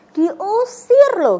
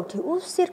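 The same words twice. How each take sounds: First: Diusir drawn out slow and loud; stressed diusir. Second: Said in the usual way. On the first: Shown as a demonstration. Teacher stresses being driven out, slow and loud.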